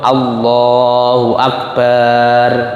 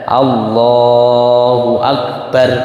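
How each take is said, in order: First: The last syllable's vowel is lengthened. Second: The last syllable's vowel is short. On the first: The speaker calls it wrong. "baknya akbar tidak dipanjangkan. Contoh Allahu akbar, nggak boleh" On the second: The speaker calls it right. "barnya harus pendek"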